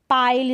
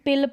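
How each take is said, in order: First: The vowel is a long 'eye' sound. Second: The vowel is a short 'i' sound. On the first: The speaker calls it right. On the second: The speaker calls it wrong.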